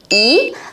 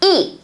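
First: The word is said with a rising tone. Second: The word is said with a falling tone. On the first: The next syllable carries the fourth tone. "khi cái chữ Y này này mà kết hợp với lại là thanh 4 thì chữ Y đấy phải đọc thành là gì?" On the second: The next syllable carries the first, second or third tone. "mình lại phải chuyển thanh 1 này thành thanh 4, đọc là Y"

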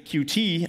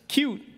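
First: It is spelled out as two letters. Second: It is said as one word, cute. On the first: "I say QT" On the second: "it's supposed to be pronounced cute"

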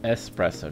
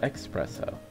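First: The word begins with an 'es' sound. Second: The word begins with an 'ex' sound. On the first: The speaker calls it right. "Because it's espresso" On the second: The speaker calls it wrong. "not expresso. I've been saying it wrong for years"

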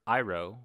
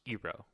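First: The name is said the original way. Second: The name is said an altered way. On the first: This is how the name is said in the show. The speaker calls it right. "and Iroh" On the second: This is how the name is said in the movie. The speaker calls it wrong. "was pronounced"

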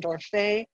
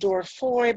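First: The name is said with a French pronunciation. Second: The name is said with an anglicized pronunciation. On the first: "I'll go with the French pronunciation" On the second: "Some people pronounce his name as"

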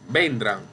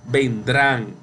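First: The stress is on the first syllable. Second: The stress is on the last syllable. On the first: The speaker calls it wrong. "Usted no dice así" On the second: The speaker calls it right. "Usted ha escuchado vendrán. Entonces, drán es la sílaba tónica"

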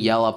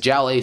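First: The name begins with a Y sound. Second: The name begins with a J sound. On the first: This is the name's real pronunciation. "It's actually Yella" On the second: This is how English speakers read the name. "you read it like in an English accent, it says jelly"

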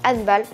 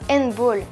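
First: Handball is pronounced the German way. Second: Handball is pronounced the English way. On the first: The speaker calls it right. "mais handball, parce que ce n'est pas anglais comme le foot, mais c'est allemand" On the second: The speaker calls it wrong. "on ne dit pas handball"

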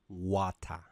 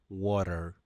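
First: It is said in a British accent. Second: It is said in a North American accent.

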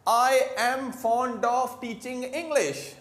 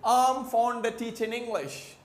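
First: It is said slowly with 'of' clearly pronounced. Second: It is said fast with 'of' reduced away. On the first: "हम लोग क्या बोल रहे हैं?" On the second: "British को कैसे बोलेंगे? ... एक्सेंट में इतने स्पीड में"

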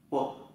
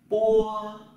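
First: It is one short, light beat without force. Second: The pitch stays level and is drawn out. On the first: "thanh nhẹ thì đọc là một nhịp không quát" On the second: "nó viết ngang ra. Đọc giống như là không có dấu gì trong tiếng Việt nhưng đọc hai nhịp"

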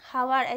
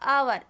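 First: The word starts with an audible h sound. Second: The word starts with a vowel, no h. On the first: The speaker calls it wrong. "हावर, ऐसे तो नहीं कहते हैं ना" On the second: The speaker calls it right. "तो आवर ऐसे हम कहते हैं"

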